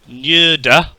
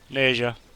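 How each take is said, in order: First: The name is pronounced the Mandarin way. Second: The name is pronounced the English way. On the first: "in Mandarin, it is in fact" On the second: "it simply translates as Neja. That's simple"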